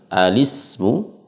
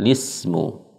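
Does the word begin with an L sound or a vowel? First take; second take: vowel; L sound. First: The word begins with a short 'a' vowel. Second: The word begins directly with an 'l' sound. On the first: "Boleh kita memulai dengan alismu" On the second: "atau kita memulai dengan lismu"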